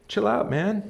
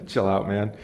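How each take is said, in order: First: Higher, playful "Chill out, man." as a cool dude; lightly voiced easygoing Solomon, tossing it off; laid-back Solomon quote. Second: Said in the usual way. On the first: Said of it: "Says Solomon". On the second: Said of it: "people take that and they hate that".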